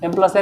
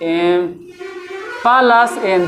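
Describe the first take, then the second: First: The three words are said quickly as one unit. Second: The three words are said with separating pauses. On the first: The sum is grouped as in brackets. The speaker calls it right. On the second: The sum is not grouped in brackets. The speaker calls it wrong.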